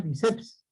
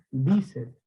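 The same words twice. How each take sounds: First: Biceps wrongly stressed on the last syllable, bi-CEPS; stress on final syllable. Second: Bíceps with a strong, drawn BÍ, light ending; stress on first syllable. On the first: Teacher shows pupils what it is not, biceps stressed on the end. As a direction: push the weight onto CEPS in biceps. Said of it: "porque no es biceps". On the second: Teacher corrects the word for pupils, bíceps stressed on BÍ. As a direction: lean on BÍ in bíceps, let ceps drop. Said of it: "sino es bíceps". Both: Shown as a demonstration.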